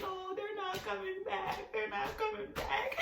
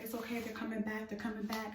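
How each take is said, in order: First: High, slow, soft wail; despairing whine, dragged out; tweaking out. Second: Hushed and even, settling someone down; calm reassurance. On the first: Panicking to boyfriend that the ambulance left, tweaking out. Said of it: "I'm just tweaking out". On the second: Boyfriend reassuring her about the ambulance, calm reassurance. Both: Retold or imitated.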